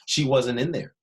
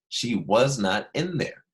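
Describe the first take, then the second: First: Was and not merge into one quick syllable pair. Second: Was and not are said as separate words. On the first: "But wasn't, it's pretty quick" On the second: "She was not"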